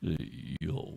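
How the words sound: It sounds soft and seductive.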